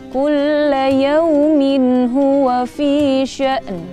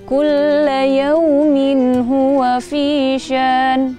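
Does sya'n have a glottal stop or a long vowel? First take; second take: glottal stop; long vowel. First: A clear glottal stop comes before the final n. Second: A voiced long vowel replaces the glottal stop. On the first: The speaker calls it right. "membaca hamzah yang sukun dan nunnya ini terdengar jelas" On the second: The speaker calls it wrong. "Bukan ... itu salah"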